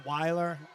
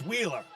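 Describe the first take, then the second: First: The first vowel sounds like 'eye'. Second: The first vowel sounds like 'ee'. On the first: The speaker calls it wrong. "I don't know why I switched to Weiler" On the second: The speaker calls it right. "So it's Wheeler"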